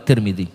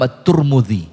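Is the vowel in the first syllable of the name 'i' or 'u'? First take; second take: i; u. First: The name is said with 'i' vowels. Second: The name is said with 'u' vowels. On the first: This is the reading most common among hadith scholars. "masyhurnya di kalangan ulama hadis Al-Imam At-Tirmidzi" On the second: This is a less common but acceptable reading. "atau boleh dibaca dengan Al-Imam At-Turmudzi"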